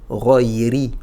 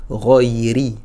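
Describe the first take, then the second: The two takes are said the same way.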